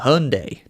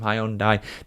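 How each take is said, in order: First: It is said with an American pronunciation. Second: It is said with a British pronunciation. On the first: "a lot of Americans call them Hyundai" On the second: "naturally as a Brit, I do call them Hyundai"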